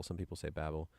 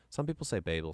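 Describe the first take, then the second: First: Babel said as BAB-ul; Babel with short A. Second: Babel said as BAY-bul; Babel with long A. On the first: Streamer giving viewers the other pronunciation, Babel as BAB-ul. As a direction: say Babel with the "a" of "cat". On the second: Streamer weighing two pronunciations for viewers, Babel as BAY-bul. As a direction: say Babel with an "ay" in the first syllable. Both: Shown as a demonstration. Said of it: "Is it Babel or Babel?".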